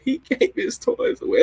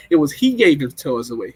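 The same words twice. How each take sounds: First: High squeaky weepy whine with a laugh; mock crying. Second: Said in the usual way. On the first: Retelling her movie theater crying, high-pitched mock sob. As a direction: squeal it like you're blubbering at a sad movie. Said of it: "what I kept saying when I was crying". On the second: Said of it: "No, it wasn't they gave his".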